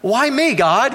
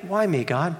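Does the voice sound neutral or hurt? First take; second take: hurt; neutral. First: It is said in a hurt, frustrated tone. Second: It is said in a plain, neutral tone.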